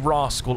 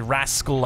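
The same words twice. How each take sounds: First: The word is said in an English accent. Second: The word is said in an American accent. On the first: "If I say rascal, I'm English" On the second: "If I say rascal, I'm American"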